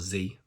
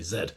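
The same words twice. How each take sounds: First: The letter is said the American way, zee. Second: The letter is said the British way, zed.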